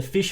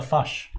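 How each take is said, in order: First: Said in the usual way. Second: "fush" for fish, with a New Zealand short u; New Zealand vowel. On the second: Shown as a demonstration. Host reads a joke about New Zealanders, "fush" in New Zealand vowel. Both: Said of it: "which was a New Zealand thing".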